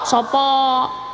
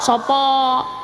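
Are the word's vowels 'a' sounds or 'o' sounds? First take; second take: o sounds; o sounds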